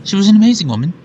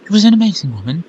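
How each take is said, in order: First: Louder reread, fixing the word; corrected reread. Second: Fast, stumbling first read; rushed first read. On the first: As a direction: say it again properly, with more voice. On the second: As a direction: blurt it out quickly. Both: Shown as a demonstration.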